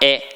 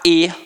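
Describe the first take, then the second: First: The vowel is open, as in Rio. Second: The vowel is closed, as in other states.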